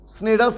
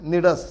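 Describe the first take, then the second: First: The word begins with an s sound. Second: The word begins with an n sound. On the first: The speaker calls it wrong. "స్నిడస్ అని కాదు" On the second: The speaker calls it right. "కానీ నిడస్, సి silent"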